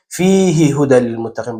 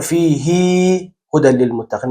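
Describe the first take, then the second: First: «فیه هدی للمتقین» with the ه in فیه kept short; short hi, right way. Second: «فیه هدی للمتقین» with the ه in فیه drawn long; stretched hi, wrong way. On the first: Teacher shows the correct short reading. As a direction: say the ه of فیه briefly. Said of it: "با صدای کوتاه". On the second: Teacher shows the incorrect stretched reading. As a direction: lengthen the ه of فیه. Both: Shown as a demonstration.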